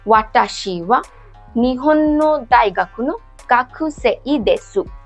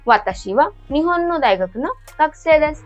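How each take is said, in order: First: Every syllable is pronounced exactly as spelled. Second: The syllables are pronounced the natural spoken way. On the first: The reader only follows the romaji spelling. The speaker calls it wrong. "जिनको नहीं पता वो इसको ऐसे पढ़ेंगे" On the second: This is how native speakers actually say it. The speaker calls it right. "इसको क्या बोलते?"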